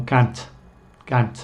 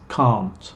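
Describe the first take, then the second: First: "can't" with flat a as in cat; short front a in "can't"; American can't. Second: "can't" with long ah, kahnt; slow, open ah in "can't"; natural British can't. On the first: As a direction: imitate American "can't", kant. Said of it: "americana de can't". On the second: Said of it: "voy a usar mi pronunciación natural". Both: Shown as a demonstration.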